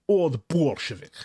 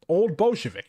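First: It is said in a put-on Russian accent. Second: It is said in the speaker's normal accent.

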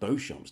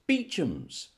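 First: The name is said the French-style way, like 'Beau-champ'. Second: The name is said the anglicised way, like 'Beecham'. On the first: The speaker calls it wrong. "You didn't think it was pronounced Beauchamps, did you? You idiot" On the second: The speaker calls it right. "Of course, Beechams"

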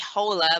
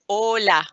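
First: The word starts with an audible h sound. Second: The word starts directly with the vowel. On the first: The speaker calls it wrong. "normally you will say hola, but no, we don't pronounce the H" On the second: The speaker calls it right. "so you can just say hola"

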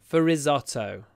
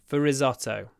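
The two takes are said the same way.

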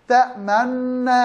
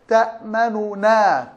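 First: The two n sounds merge into one doubled n. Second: Two n sounds, the first with a faint u. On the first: "فالوجه الأول الإضغام مع الإشمام" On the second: "الإظهار مع الروم"

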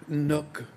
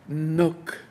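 First: The word begins with an N sound. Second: The word begins with an N sound.

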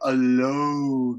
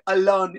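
First: The word is said slowly and drawn out. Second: The word is said quickly and clipped. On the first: The speaker calls it right. "You want to say alone, right?" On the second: The speaker calls it wrong. "if you say alone, it's real fast. A lot like that"

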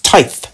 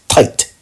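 First: The word ends in a th sound. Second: The word ends in a plain t sound. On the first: The speaker calls it right. "It's tithe, right?" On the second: The speaker calls it wrong. "he keeps saying tight"

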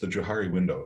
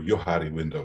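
First: The name is said the speaker's usual way. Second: The name is said the European way.

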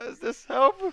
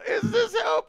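First: It is said in a lower put-on voice. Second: It is said in a higher put-on voice.

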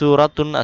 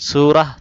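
First: The word ends in an added 'atun' syllable. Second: The word ends in a short 'ah' sound. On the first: The speaker calls it wrong. "সুরাতুন উচ্চারণ হবে না" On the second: The speaker calls it right. "সুরাহ বলতে হবে"

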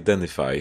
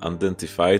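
First: The T sound is dropped. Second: The T sound is clearly pronounced. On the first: The speaker calls it right. "tylko identify" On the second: The speaker calls it wrong. "Don't say identify"

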